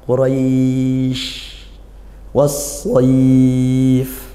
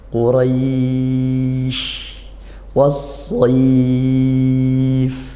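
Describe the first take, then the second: First: The long vowels are held for a medium length. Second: The long vowels are held longer and more slowly. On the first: "Atau dua ya, dua alif semua" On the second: "Tiga alif boleh, lebih lambat mungkin bacanya"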